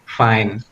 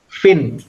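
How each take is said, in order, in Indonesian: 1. Kata ini punya vokal panjang, seperti 'fine'. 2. Kata ini punya vokal pendek, seperti 'fin'. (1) "So you have to say fine" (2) "ada yang bacanya fin ya, itu berarti pronunciationnya salah"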